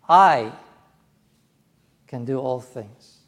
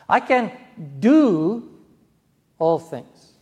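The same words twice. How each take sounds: First: The stress falls on the word I. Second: The stress falls on the word do. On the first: The speaker personally, not only famous people, is able. "Me. Not just Billy Graham or Dennis Paderny, but me" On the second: One can act rather than be passive. "I don't have to be passive. I can take action"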